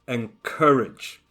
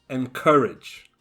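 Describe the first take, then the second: The two takes are said the same way.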